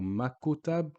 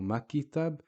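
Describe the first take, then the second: First: A 'u' vowel is inserted after the K. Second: An 'i' vowel is inserted after the K. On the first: "or makutab" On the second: "or makitab"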